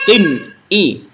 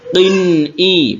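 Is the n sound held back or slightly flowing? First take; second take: held; flowing. First: The n sound is held back and cut short. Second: The n sound flows on slightly. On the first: The speaker calls it wrong. "itu tertahan suaranya" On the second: The speaker calls it right. "n-nya agak dialirkan sedikit antara tertahan dan mengalir"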